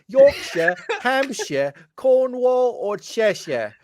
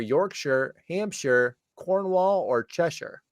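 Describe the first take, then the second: First: The names are read in a put-on accent. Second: The names are read in a plain accent. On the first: "say it like this? ... Sorry for the horrible accent" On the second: "how you pronounced it properly"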